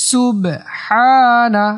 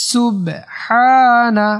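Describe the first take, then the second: The two takes are said the same way.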